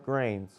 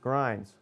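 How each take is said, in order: First: The name is said as one syllable, like grains. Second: The name is said as one syllable, like grinds. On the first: "or Grains" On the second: "It is incorrectly pronounced Grinds"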